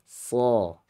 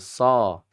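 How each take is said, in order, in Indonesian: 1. Konsonannya terdengar berat, lidah naik. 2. Konsonannya terdengar ringan, lidah tidak naik. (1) "Harusnya so" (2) "pengucapan yang salah tidak naik"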